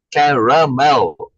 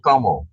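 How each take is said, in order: First: "Caramel" drawn out slowly with all three syllables, "ca-ra-mel"; slow full caramel. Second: "caramel" squished to two syllables, "carmel". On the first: Showing the class the full three-syllable "Caramel". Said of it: "only one extra syllable". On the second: Contrasting the squished American "caramel" with the full one. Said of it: "it's just squishing it together". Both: Shown as a demonstration.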